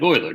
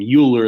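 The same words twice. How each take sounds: First: The name does not rhyme with Bueller. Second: The name rhymes with Bueller. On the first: The speaker calls it right. "It's pronounced like Euler, don't ever forget" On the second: The speaker calls it wrong. "like Bueller, but that's in fact wrong"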